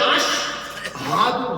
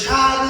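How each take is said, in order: First: The word is said as 'ash-hadu', with 'ash'. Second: The word is said as 'sadu', without 'ash'. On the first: The speaker calls it right. "Original হবে আশ হাদু" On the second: The speaker calls it wrong. "তোরা ভুল বলছেন"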